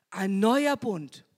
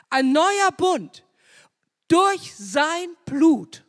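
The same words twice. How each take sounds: First: Said in the usual way. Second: Loud, slow, higher proclamation; fervent climax. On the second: Real, not acted. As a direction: preach it out, stretching "Blut". (Prediger ruft laut und langsam den neuen Bund aus)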